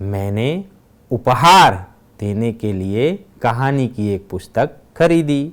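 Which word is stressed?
उपहार. The stress falls on the word उपहार. "दूसरे वाक्य में उपहार शब्द पर भार दिया गया है"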